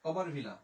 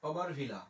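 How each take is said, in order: The two takes are said the same way.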